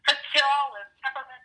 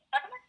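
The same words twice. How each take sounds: First: Slowly stretched peppermint, a light mock of the coworker; drawn-out offer. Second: High rising "Peppermint?" as a question; puzzled question. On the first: Coworker offering candy, word stretched out slowly. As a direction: draw out "Peppermint" long and slow. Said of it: "She goes". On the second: Real, not acted. Echoing the coworker's offer, high and puzzled. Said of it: "questioning the word".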